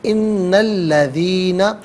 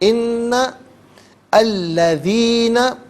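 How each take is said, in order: First: The two words are joined into one. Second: The two words are said separately. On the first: "इसे हम पढ़ेंगे इन्नल्लज़ीना" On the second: "हर कलमे को अलहदा"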